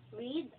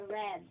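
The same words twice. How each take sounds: First: "Read" said like reed, with long EE; "Read" rhyming with seed; present tense read. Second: "read" said like red, with short E; "read" rhyming with said; past tense read. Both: Shown as a demonstration. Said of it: "pag nag-pronounce ka ng past tense".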